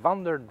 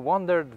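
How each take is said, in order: Both takes have the same delivery.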